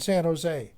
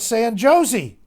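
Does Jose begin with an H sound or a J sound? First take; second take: H sound; J sound. First: Jose begins with an H sound. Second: Jose begins with an English J sound. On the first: The speaker calls it right. "The J is pronounced as an H" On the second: The speaker calls it wrong. "but I said San Josie"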